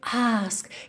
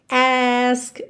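First: It is said with a British accent. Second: It is said with an American accent.

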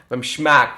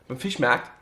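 First: The first syllable is clipped, as in local dialect. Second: The word is said in full standard German.

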